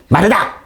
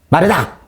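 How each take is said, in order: First: The name is called sharply, in a scolding tone. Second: The name is called sharply, in a scolding tone.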